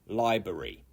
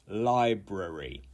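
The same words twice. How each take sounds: First: It uses the alternative pronunciation some people use. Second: It uses the recommended full pronunciation of the word. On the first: The speaker calls it wrong. "not library" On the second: The speaker calls it right. "you should say library"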